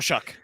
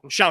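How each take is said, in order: First: The name rhymes with 'duck', ending in k. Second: The name rhymes with 'how', with no final k. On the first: This is how the player himself says it. The speaker calls it right. "It's Shuck" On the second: This follows an American pronunciation guide. The speaker calls it wrong. "it's Shao"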